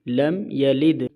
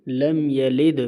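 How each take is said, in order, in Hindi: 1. आख़िरी d को हल्की जुम्बिश के साथ छोड़ा जाता है। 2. आख़िरी d को हल्की जुम्बिश के साथ छोड़ा जाता है।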